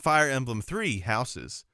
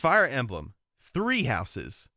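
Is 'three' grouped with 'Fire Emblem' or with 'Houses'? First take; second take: Fire Emblem; Houses. First: 'Three' is grouped with 'Fire Emblem' as one phrase. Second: 'Three' is grouped with 'Houses' as one phrase. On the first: The title sounds like a numbered third game. The speaker calls it wrong. "It's not Fire Emblem Three Houses" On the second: The title names a game called Three Houses. The speaker calls it right. "It's Fire Emblem Three Houses"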